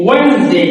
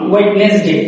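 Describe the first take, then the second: First: ওয়েডনেসডে said wenz-day, the first d silent; correct pronunciation. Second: ওয়েডনেসডে said as spelled, wed-nes-day with every letter; spelling pronunciation. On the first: Teacher showing viewers the right way to say ওয়েডনেসডে, silent d, wenz-day. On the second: Teacher showing viewers the wrong way to say ওয়েডনেসডে, every letter sounded out. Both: Shown as a demonstration. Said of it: "not ওয়েডনেসডে".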